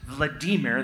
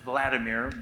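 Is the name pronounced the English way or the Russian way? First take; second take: Russian; English. First: The name is pronounced the Russian way. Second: The name is pronounced the English way. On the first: "That's the way you say it in Russia" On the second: "we would say it here"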